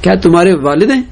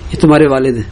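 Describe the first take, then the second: First: It is said as a plain asking question. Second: It is said as a flat informing statement. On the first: The speaker is asking whether this is the father. "سوال بھی ہو سکتا ہے" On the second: The speaker is informing that this is the father. "خبر بھی ہو سکتی ہے"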